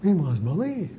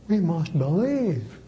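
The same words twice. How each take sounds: First: "we" hit hardest, "must believe" falls away; stress on we. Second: "believe" carries the weight, "we must" kept light; stress on believe. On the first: Priest demonstrating the repeat-and-stress method, punching "we". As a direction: lean on "we" and let the rest drop. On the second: Priest repeats the sentence again, now stressing "believe". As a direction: save the push for "believe". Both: Shown as a demonstration. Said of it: "And you emphasize each word separately".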